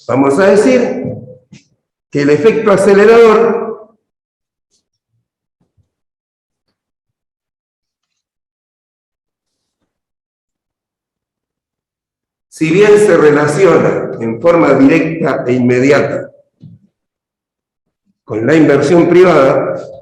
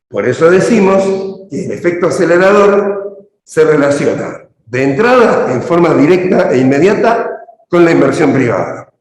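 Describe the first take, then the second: First: It is said slowly. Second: It is said at normal speed.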